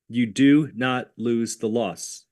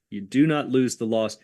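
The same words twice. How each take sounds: First: Slow, stressing "do" in "You do not lose the loss"; insistent teacher stress on "do"; slow emphatic. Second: Said in the usual way. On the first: Shown as a demonstration. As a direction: lean on "do", slowly.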